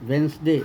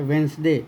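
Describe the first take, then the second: The two takes are said the same way.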